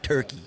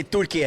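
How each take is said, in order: First: Said in the usual way. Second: Turkey said as Türkiye, the Turkish way; Turkish pronunciation. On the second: Shown as a demonstration. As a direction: teach Turkey as "TUR-kee-yeh", tapped r. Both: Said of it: "everyone say Turkey and not Turkey".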